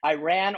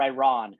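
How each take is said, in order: First: "Iran" as eye-RAN; short A as in "cat" ending "Iran"; eye-RAN pronunciation. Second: "Iran" as eye-RAHN; eye-RAHN pronunciation. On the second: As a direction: say "Iran" with an "ah" in the last syllable. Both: Shown as a demonstration. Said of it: "pronounce five words".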